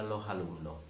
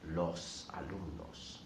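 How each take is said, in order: First: The final s is dropped or breathy. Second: The final s is clearly pronounced.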